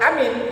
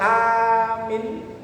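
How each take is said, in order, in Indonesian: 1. Vokal pertama diucapkan pendek. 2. Vokal pertama diucapkan panjang. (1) "artinya saya nyuruh orang supaya dia percaya" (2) "A-nya panjang, min-nya pendek"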